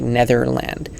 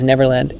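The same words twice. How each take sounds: First: Netherland with a th in the middle; mispronounced name. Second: Neverland with a clear v in the middle; correct pronunciation. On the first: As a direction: say Netherland, th in place of v. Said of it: "I almost pronounce it like Netherland". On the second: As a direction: say Neverland with v, not th. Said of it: "but it's Neverland". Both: Shown as a demonstration.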